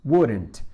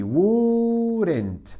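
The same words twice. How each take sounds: First: Wouldn't said short and lower, falling; short model. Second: Wouldn't drawn out, high start falling; pronunciation demo. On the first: Teacher repeating Wouldn't briefly for students. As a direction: clip Wouldn't quick and low. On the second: Teacher modelling how Wouldn't sounds, drawn out. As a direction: stretch Wouldn't to show its sounds. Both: Shown as a demonstration. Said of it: "¿Cómo es la pronunciación?".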